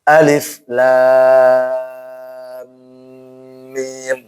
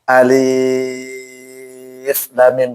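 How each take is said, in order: First: The first vowel of alif is short and quick. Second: The first vowel of alif is lengthened. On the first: The speaker calls it right. "langsung tanpa mat, ingat tanpa panjang ... alif cepat" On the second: The speaker calls it wrong. "Atau alif lam mim, nggak boleh"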